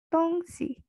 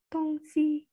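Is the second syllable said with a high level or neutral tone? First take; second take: neutral; high level. First: The second syllable is light and toneless. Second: Both syllables carry a high level tone. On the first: It means a thing or object. "maka diartikan sebagai barang" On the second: It means east and west. "ada nada satu dan nada satu itu tongsi"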